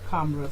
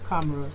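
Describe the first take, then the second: The two takes are said the same way.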